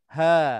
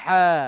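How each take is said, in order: First: The h is breathed out loosely without throat tension. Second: The h is squeezed tightly in the middle throat. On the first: The speaker calls it wrong. "dia tak ada getar, getaran tu" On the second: The speaker calls it right. "dia macam macam ada denyutan sikit"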